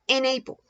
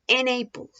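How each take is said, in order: First: The n sound joins onto the next word. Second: The same.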